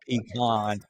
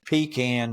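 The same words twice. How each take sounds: First: Pecan is said a non-Georgia way. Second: Pecan is said the Georgia way. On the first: The speaker calls it wrong. "not pecan" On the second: The speaker calls it right. "it's pecan, That's Georgia"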